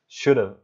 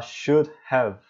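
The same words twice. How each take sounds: First: "should have" run together as "should've"; quick linked "should've" for "should have"; contracted form. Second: "should have" as two full separate words; careful, uncontracted "should have"; full unreduced form. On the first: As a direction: drop the h in "should have", reducing "have" to a weak "uv". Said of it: "eles falam". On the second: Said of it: "em vez de falar". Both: Shown as a demonstration.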